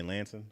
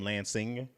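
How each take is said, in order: First: "Lansing" with the ending squashed to "sin"; reduced local ending. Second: "Lansing" with a full "sing" at the end; full ING ending. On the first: Midwesterner showing his hometown way, "Lansing" ending in "sin". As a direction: drop the G in "Lansing", like "Lan-sin". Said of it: "you'll hear me say". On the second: Midwesterner showing what locals never say, "Lansing" with full ING. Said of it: "we don't ever say". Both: Shown as a demonstration.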